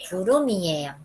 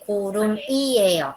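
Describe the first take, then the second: First: The m flows smoothly into the next syllable. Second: The m is kept apart from the next syllable. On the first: The speaker calls it right. "Bien fluidamente ustedes van a leer" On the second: The speaker calls it wrong. "No se va a leer"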